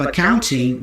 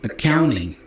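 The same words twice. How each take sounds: First: The T in the middle is clearly pronounced. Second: The T is dropped, American style.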